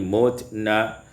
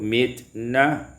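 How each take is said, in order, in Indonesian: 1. Huruf m diikuti vokal 'u'. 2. Huruf m diikuti vokal selain u.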